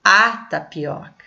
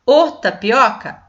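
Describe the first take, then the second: First: "a tapioca" with the article A set apart, as a firm answer; correct article stressed. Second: "o tapioca" with the article O punched, as a doubtful question; wrong article stressed. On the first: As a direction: stress the A, then let tapioca fall. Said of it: "Não". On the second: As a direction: offer "o tapioca" as a test, leaning on O. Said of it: "porque eu falo". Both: Shown as a demonstration.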